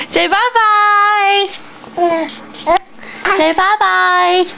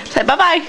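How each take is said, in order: First: Sing-song prompt. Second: Said in the usual way. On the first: Shown as a demonstration.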